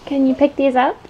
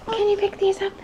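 First: Said in the usual way. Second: High singsong. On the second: Real, not acted.

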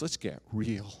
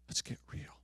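First: Said in the usual way. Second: Whispered, softer repeat. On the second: Acted. The Lord telling the congregation, whispered. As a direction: breathe it out as a hushed echo.

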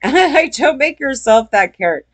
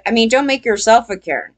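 First: A laugh before, then the warning said through a chuckle. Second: Said in the usual way. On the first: Real, not acted. Telling viewers not to be a Karen, laughing. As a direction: laugh and toss the warning off again.

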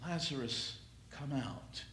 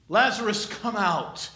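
First: Gentle hushed summons; soft echo. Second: Raised call. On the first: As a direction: let the call fade to near a hush. Soft repeat of the call. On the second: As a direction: call the name out loud. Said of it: "he cries out for that". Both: Acted.

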